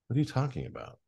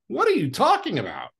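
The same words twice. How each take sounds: First: It is said with tiny, minimal energy. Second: It is said with big, broad energy.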